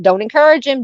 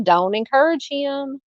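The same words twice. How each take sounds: First: Higher and louder, playful scolding; exclaimed scolding. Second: Softer repeat. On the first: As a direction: call it out to the chat, teasing. Host scolds chat jokingly. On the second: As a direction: let it trail, half laughing at it. Host repeats the scolding, softer. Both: Real, not acted.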